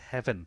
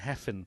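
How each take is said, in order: First: The middle consonant is a v sound. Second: The middle consonant is an f sound. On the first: The speaker calls it right. "so it is Heaven Owen" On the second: The speaker calls it wrong. "I think we've been going Heffen"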